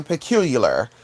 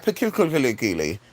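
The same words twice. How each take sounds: First: Said in the usual way. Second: "Peculiarly" garbled with extra syllables, low and slow; tongue-tied mispronunciation. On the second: Shown as a demonstration. Reader guessing at an unknown word, garbled "Peculiarly". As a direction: stumble through "Peculiarly" with too many syllables. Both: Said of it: "instead of saying "peculiar".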